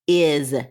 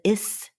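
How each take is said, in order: First: The word ends with a 'z' sound. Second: The word ends with an 's' sound. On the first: The speaker calls it right. "makes the sound of z" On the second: The speaker calls it wrong. "We don't usually says"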